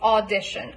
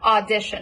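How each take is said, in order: First: The first vowel is the rounded 'aw' of law. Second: The first vowel is the open 'ah' of father. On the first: "You can also say it with an ah as in law" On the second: "It's still got to be a pure ah as in father"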